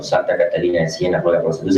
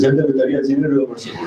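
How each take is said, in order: First: Said in the usual way. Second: Higher, sing-song parody ending in a laugh; mock the prayer like a jeering demon; sarcastic mockery. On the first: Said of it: "el padre Miguel López diciendo". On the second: Demon mimicking the priest's litany, sarcastic sing-song. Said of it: "son chistes sarcásticos".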